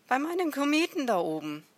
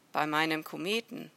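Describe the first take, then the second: First: High, loud, quick insistence; exasperated raised-voice answer; emphatic repetition. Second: Said in the usual way. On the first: A narrator's reading. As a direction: repeat it forcefully for someone who didn't get it. Repeats emphatically after being questioned.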